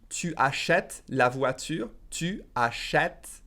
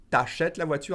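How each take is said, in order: First: Slow, every syllable clear; slow careful French. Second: Quick, the U dropped; fast contracted French. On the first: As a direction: say it slowly and fully. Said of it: "If I said it faster". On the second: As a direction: run it together fast. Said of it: "If I said it faster, I would say". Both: Shown as a demonstration.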